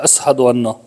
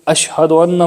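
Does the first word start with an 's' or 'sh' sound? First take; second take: s; sh. First: The first word starts with an 's' sound. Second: The first word starts with an 'sh' sound.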